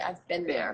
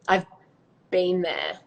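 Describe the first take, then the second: First: It is said in an American accent. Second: It is said in an Australian accent.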